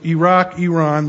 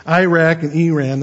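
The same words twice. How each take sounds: First: Iraq, Iran as "ee-ROCK, ee-RON"; textbook pronunciation. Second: Iraq and Iran with short flat "a", Iraq as "EYE-rack"; needling mispronunciation. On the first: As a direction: open "ah" in both Iraq, Iran. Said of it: "that's the textbook way". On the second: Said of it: "if you wanna get under their skin". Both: Shown as a demonstration.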